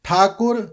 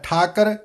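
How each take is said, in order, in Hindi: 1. दूसरे अक्षर में 'u' स्वर है। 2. दूसरे अक्षर में 'u' स्वर नहीं है। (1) "औंकड़ उच्चारण करना है" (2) "इस तरह उच्चारण नहीं करना"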